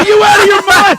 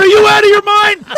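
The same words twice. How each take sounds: First: High, loud disbelieving yell; retold shout. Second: High, loud incredulous yell; retold shout again. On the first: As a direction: yell it in mock outrage. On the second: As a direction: bellow it like he's lost it. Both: Retold shouting at friend in car.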